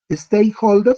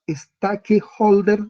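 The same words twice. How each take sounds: First: It is said with English sounds. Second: It is read letter by letter as Spanish. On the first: This is how the word sounds when spoken. "se pronuncia" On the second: This is how the word is written. "se escribe"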